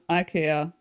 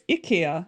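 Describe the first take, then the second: First: The word begins with an 'eye' sound. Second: The word begins with an 'ee' sound. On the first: This is how it is commonly said elsewhere. The speaker calls it wrong. "not IKEA" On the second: This is how it is said in Scandinavia. The speaker calls it right. "in Scandinavia, it's IKEA"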